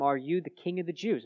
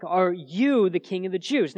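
First: Said in the usual way. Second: Slow and weighty, pressing the word "you"; stress on YOU. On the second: Shown as a demonstration. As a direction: lean hard on "you", slowed down. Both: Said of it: "you" is very emphatic".

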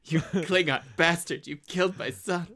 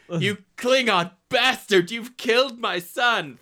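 First: Said in the usual way. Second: Slow, louder, higher anguished roar on Klingon; Kirk rage. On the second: Shown as a demonstration. Kirk raging at the Klingon who killed his son, slow and loud. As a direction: drag out Klingon bastard in fury. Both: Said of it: "Third time for good measure".

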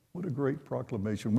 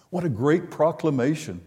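First: Softer echo. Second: Said in the usual way. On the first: Shown as a demonstration. Repeats praise of the proclamation.

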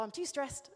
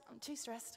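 First: Said in the usual way. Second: Much softer, mumbled repeat of too stressed. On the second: Retold or imitated. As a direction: drop it to a sulky mutter the second time. Retold sulky refusal, repeated.

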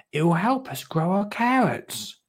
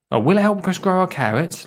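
First: "It will help us grow our carrots" higher, falling at the end; statement tune. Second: Higher, quicker, rising on "carrots"; question tune. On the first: Narrator first reads Lottie's line as a statement, falling tune. Misread as statement, then redone. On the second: Narrator rereads Lottie's line as a question, rising tune. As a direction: lift "carrots" at the end as a question. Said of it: "Lottie asked". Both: Acted.

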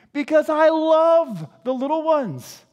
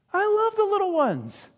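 First: Emphatic declaration. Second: High-pitched doting declaration; gushing affection. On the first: Jesus declaring love, loud take. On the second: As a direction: coo it high with delight. Jesus repeats it, much higher. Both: Acted.

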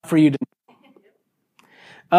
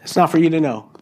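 First: Slow, secretive whisper; hushed whisper. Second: Said in the usual way. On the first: Acted. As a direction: breathe it out slowly like a secret. Repeats Jesus' answer, hushed. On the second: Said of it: "And Jesus says".

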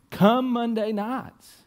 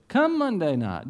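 First: "Come Monday nights" stretched out slow and high; "Come Monday nights" slow, high and pleading; drawn-out plea. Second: Raised, pressing call to come; fired-up plea from the pulpit; urgent invitation. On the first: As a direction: lean hard on every word of "Come Monday nights". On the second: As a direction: push the invite up high. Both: Real, not acted.

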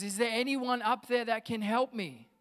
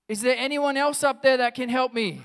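First: Higher, louder call up from a pit; crying out for help. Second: High, full-volume shout for help; yelling out. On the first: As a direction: call up for anyone who can help. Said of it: "Joe just cries out". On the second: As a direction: yell upward for anybody else at all. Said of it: "and he yells out". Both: Acted.

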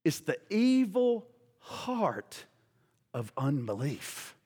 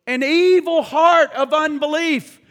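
First: Much softer, slow, sinking low; hushed and grave. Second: Higher and louder, stressing evil; preached aloud. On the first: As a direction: drop to a slow, grave hush. Dramatic, dropped emphasis. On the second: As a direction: proclaim it loudly, hitting evil. Scripture repeated loudly. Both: Acted.

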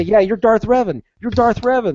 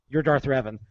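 First: Taunting. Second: Said in the usual way. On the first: Retold or imitated. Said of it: "I would say". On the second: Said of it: "And he goes".

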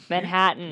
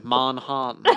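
First: Midwest accent. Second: Deep British lord. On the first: Real, not acted. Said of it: "that's not how I speak". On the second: Retold or imitated. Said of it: "Deep British lord".

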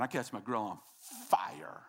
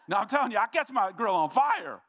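First: Pause, then a forceful breathy "fire"; stress on FIRE. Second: Loud, high-pitched comic insistence; emphatic shout. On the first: Preacher confessing to church about his grill, stress on "fire". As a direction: hold back, then puff out the word "fire". Emphasizes how badly grill burns. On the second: Preacher insisting to church about his grill, emphatic shout. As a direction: shout it out as an exuberant confession. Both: Real, not acted.

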